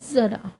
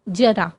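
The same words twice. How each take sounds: First: The first consonant has its changed nukta sound. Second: The first consonant has its traditional sound. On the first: It means old age. "नुक्ता लगा दें" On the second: It means a little. "बिना नुक्ता के"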